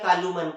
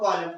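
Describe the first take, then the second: First: The final n is sounded. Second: The final n is silent. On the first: The speaker calls it wrong. "ऐसा नहीं बोलते" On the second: The speaker calls it right. "एन आया वो silent है"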